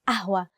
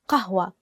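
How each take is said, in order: First: The word starts with a glottal stop. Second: The word starts with a deep q sound. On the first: This is the easier everyday form. "we use the letter a" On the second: This is the standard Arabic form. "the actual standard Arabic word is qahwa"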